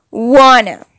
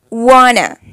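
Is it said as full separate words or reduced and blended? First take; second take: reduced; reduced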